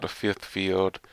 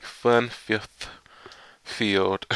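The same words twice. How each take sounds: First: Said in the usual way. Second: Slow, stumbling over "fun fifth field"; stumbled reading. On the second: Real, not acted. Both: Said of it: "Yeah, I know I messed that up".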